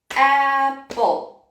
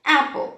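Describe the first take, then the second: First: Apple slowly split into two beats; syllable by syllable. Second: Said in the usual way. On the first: Shown as a demonstration. Teacher demonstrating syllable counting to children, apple in two beats. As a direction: tap out each syllable of apple. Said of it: "apertar isso aqui pra contar as sílabas". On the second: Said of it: "Então, por exemplo".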